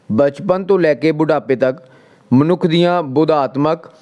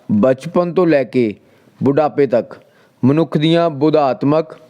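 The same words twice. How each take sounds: The two takes are said the same way.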